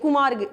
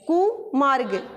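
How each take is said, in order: First: The word is said fast, prefix run together. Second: The prefix is slightly set apart from the rest. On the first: The speaker calls it wrong. "Fast ऐसे नहीं बोलेंगे" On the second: The speaker calls it right. "इस प्रकार से इसका हम उच्चारण भी करते हैं"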